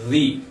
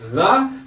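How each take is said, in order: First: The vowel is the long form used before vowels. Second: The vowel is the short form used before consonants. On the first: The next word starts with a vowel. "sino que decimos the" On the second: The next word starts with a consonant. "Ahí ya no decimos the"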